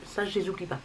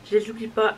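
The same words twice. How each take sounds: First: Said in the usual way. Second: Louder insistence. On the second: Real, not acted. Insists she never forgets blushes. (elle répète « Je les oublie pas » plus fort, avec insistance)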